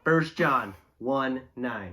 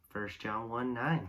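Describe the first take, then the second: First: It is said at a slow pace. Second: It is said at a fast pace. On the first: "so we'll slow it down" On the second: "We're going to go full speed"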